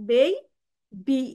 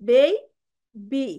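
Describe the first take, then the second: No difference in how they are said.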